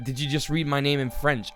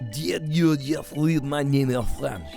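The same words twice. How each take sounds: First: It is said in a normal English accent. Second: It is said in a put-on French accent.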